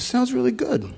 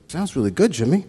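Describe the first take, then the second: First: Much higher put-on voice, hammed-up approval; exaggerated Jerry impression. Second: Lightly voiced Jerry, pitched higher, mild approval; a quick higher take on Jerry's voice; imitating Jerry's praise. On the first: Retelling Jerry's rare praise to the crowd, hammed-up high impression. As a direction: push the voice way up in a mock Jerry. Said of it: "He says". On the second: Retelling to the memorial crowd how Jerry praised him, lightly imitated higher. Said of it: "And he goes".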